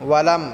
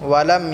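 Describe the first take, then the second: Both takes have the same delivery.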